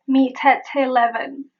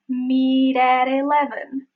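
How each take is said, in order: First: The T is not flapped. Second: The T is a quick flap. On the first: The speaker calls it wrong. "Nor is it" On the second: The speaker calls it right. "It is"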